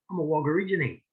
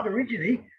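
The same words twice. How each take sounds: First: Said in the usual way. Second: Higher, rising, lightly mocked confusion; mild mock bafflement, pitched up; puzzled echo. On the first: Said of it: "I say". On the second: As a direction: repeat "Wogorigini?" like a baffled stranger. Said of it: "And they say".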